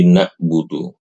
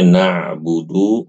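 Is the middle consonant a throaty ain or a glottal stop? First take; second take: glottal stop; ain. First: The middle consonant is a plain glottal stop. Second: The middle consonant is a throaty ain sound. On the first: "huruf ainnya itu diubah menjadi hamzah" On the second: "Yang tadinya"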